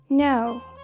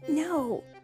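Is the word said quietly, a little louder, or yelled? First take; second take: a little louder; quietly. First: It is said a little louder. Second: It is said quietly.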